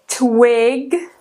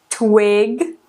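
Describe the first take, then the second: The two takes are said the same way.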